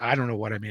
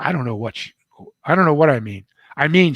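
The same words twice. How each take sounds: First: Said in the usual way. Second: High, loud tearful protest; crying outburst. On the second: Retold or imitated. Meredith crying to the author about his mother, loud high outburst. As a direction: blurt it out as she starts to cry. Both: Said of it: "She started to cry again".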